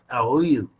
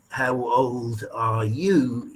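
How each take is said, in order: First: Sounds are dropped so the words blur together. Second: Every sound in the words is said clearly. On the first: The speaker calls it wrong. "is something like" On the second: The speaker calls it right. "The best way he could say"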